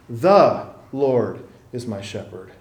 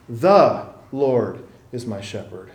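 First: The stress falls on 'the'. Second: The same.

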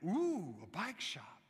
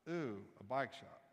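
First: It sounds excited and delighted. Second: It sounds bored and unimpressed.

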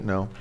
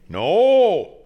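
First: It is said calmly and seriously. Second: It is said loudly and cartoonishly.

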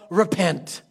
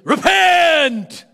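First: The word is said in a calm, plain way. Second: The word is shouted in a fierce, threatening way. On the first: It is simply stated as the first step. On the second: It is a street preacher's condemning warning.

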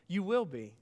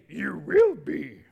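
First: It is said in his normal voice. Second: It is said in a Yoda impression.

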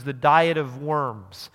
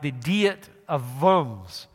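First: The name is pronounced the plain English way. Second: The name is pronounced in a German way.

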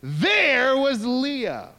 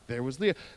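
First: It is said with exclamatory energy. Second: It is said flatly, without exclamation.

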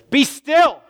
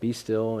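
First: It is said loudly as a stern command. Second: It is said softly and calmly. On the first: It is an order to stop the noise. "Maybe it should be read, "Be still! Knock it off!" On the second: It is a gentle invitation to rest. "let's read it that way"

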